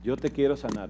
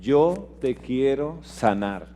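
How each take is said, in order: First: "Yo te quiero sanar" repeated much softer, almost breathed; hushed echo. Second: "Yo te quiero sanar" said very slowly and gently; tender promise. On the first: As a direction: let the promise fall to a hush. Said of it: "dice el Señor". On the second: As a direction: speak God's promise softly, stretching it out. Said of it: "Dios dice". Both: Acted.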